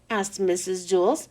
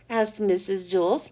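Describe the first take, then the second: No difference in how they are said.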